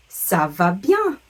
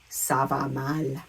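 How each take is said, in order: First: Slow "Ça va bien", rising loudly on bien; drawn-out, upbeat-tuned "Ça va bien"; French model phrase. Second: Slow, low "Ça va mal"; drawn-out, lower "Ça va mal"; French model phrase. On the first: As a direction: model "Ça va bien" for learners, lifting bien. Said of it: "either the word bien". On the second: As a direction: model "Ça va mal" with the tune kept down. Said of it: "or mal". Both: Shown as a demonstration.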